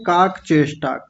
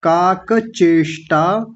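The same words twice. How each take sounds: First: काक चेष्टा run together as kaak-cheshta; no a after काक in काक चेष्टा; clipped middle vowel. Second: काक चेष्टा slowly as kaa-ka che-shtaa; full vowels. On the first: Teacher imitating common error, काक चेष्टा as kaak-cheshta. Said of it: "बड़े-बड़े लोग भी बोलते हैं". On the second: Teacher modelling for class, काक चेष्टा syllable by syllable. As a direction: sound the a after काक in काक चेष्टा. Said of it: "काक नहीं". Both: Shown as a demonstration.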